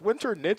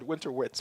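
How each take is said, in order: First: The last part is said like 'knits'. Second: The last part is said like 'wits'. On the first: The speaker calls it right. "And so it's winter knits" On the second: The speaker calls it wrong. "I always said winter wits for many, many years"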